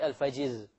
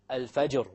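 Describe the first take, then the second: First: The r sound is light and thin. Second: The r sound is heavy and full. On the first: The speaker calls it wrong. "We don't say" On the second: The speaker calls it right. "the ra itself will be heavy"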